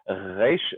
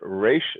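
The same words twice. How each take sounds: First: The r is an Israeli r. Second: The r is a North American r. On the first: "the way they do it in Israel" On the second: "the way we do it in North America"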